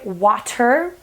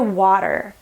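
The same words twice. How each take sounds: First: The middle consonant is a crisp T sound. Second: The middle consonant is a soft D sound. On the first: "Do you notice that I don't say water?" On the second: "I say water"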